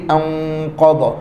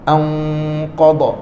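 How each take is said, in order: The two takes are said the same way.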